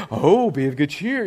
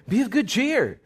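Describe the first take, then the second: First: Put-on sweet change of tune; mock encouragement. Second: Said in the usual way. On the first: Crowd suddenly all for the blind man, mock encouragement. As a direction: imitate the fickle crowd cheering him on. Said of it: "now they're all like". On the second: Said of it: "he called the blind man saying".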